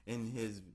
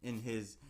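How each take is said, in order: Both takes have the same delivery.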